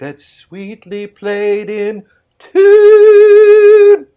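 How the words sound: It is said in a Scottish accent.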